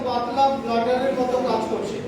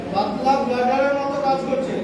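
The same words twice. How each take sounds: The two takes are said the same way.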